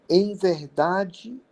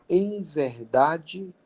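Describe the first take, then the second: Both takes have the same delivery.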